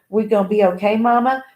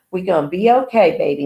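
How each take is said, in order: First: Okay rising as a question; hopeful question. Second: Okay falling, said as a settled fact; reassuring statement. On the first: Daughter hugging her mother, asking with a rising question. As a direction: ask it, hoping for a yes. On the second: Mother answering her daughter, falling and reassuring. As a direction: tell her it will be fine. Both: A narrator's reading. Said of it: "Monique repeated".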